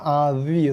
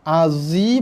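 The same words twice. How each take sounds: First: The z sound is a heavy, emphatic za. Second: The z sound is a plain, light z. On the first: The speaker calls it right. "yang betul azi" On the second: The speaker calls it wrong. "Azi bacaan yang salah"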